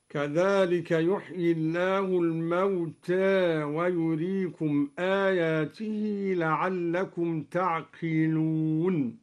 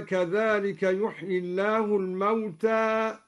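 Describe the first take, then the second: First: الموتى with its final alif half tilted toward e; taqlil in الموتى. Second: الموتى ending on a plain open a; open alif in الموتى. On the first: Teacher demonstrating al-Duri's minor imala. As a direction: lean the alif of الموتى slightly. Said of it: "قلل الدوري ألف الموتى، هكذا". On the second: Teacher reciting the base reading of الموتى. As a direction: end الموتى on a full fatha. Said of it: "قلل الدوري ألف الموتى". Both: Shown as a demonstration.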